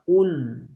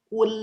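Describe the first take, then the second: First: The l sound is thick and heavy. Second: The l sound is thin and light. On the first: The speaker calls it wrong. "bukan kul" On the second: The speaker calls it right. "lam itu kan ... tipis maka ... tapi kul"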